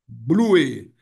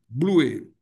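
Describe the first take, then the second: First: The word is said as two syllables. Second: The word is said as two syllables.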